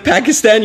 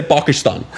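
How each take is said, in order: First: Said in the usual way. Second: Pakistan said with broad "ah" vowels, PAH-kee-stahn; Obama-style pronunciation. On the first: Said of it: "instead of Pakistan". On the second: Shown as a demonstration. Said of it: "you say Pakistan".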